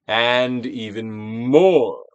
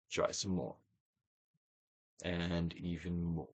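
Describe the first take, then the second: First: Very slow, louder push on more; coaxing with a firmer, stretched voice; stronger prompt. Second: Slow, soft and low urging; gentle hushed encouragement; soft prompt. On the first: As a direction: draw it out and press. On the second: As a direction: ease them on quietly. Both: Acted. Repeated releasing prompt.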